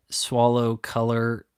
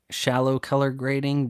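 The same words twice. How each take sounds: First: "swallow" said with a w sound, slowly; "swallow" as a fumbled "shallow"; slip of the tongue. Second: "shallow" said clearly with sh; corrected word. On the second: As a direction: fix it to "shallow", sh sound. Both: Real, not acted.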